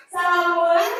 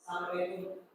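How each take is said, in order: First: Higher, louder, bright rising salam; eager husband greeting. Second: Low, soft, offhand salam; cool husband greeting. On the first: Husband coming home, eager and excited. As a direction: burst in the door glad to be home. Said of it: "Atau ibu mau suaminya". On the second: Husband coming home, aloof and cool. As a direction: greet her flat and cool, barely bothering. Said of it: "kalau yang cool". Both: Shown as a demonstration.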